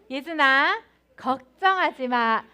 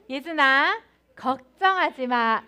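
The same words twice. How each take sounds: First: It is said in a warm, gentle voice. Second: The same.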